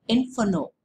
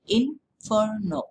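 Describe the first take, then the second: First: Said in the usual way. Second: "inferno" slowly broken up, in - fer - no; "inferno" in three drawn-out, separate sounds; split into three syllables. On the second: Shown as a demonstration. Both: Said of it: "so that is three".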